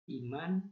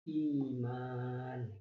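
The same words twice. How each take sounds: First: The vowels are kept short. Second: The vowels are drawn out long. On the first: "Bahasa Indonesia kan cukup"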